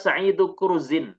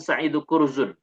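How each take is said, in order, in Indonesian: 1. Kata terakhir berakhir dengan bunyi 'in'. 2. Kata terakhir berakhir dengan bunyi 'un'. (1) "cara membacanya adalah"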